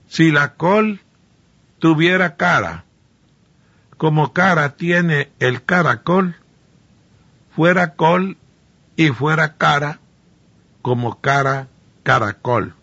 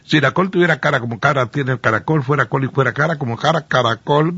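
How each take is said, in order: First: It is said slowly. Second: It is said at normal speed.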